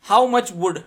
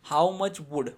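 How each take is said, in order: First: How much wood called out loud; loud tongue twister start. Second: Slow explaining reread. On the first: Teacher calls out the woodchuck line to students, loud. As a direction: announce it boldly to the class. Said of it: "Speak them repeatedly". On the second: Teacher rereads the line to explain it, slow. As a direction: go back over it word by word. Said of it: "ચકનો earth". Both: Shown as a demonstration.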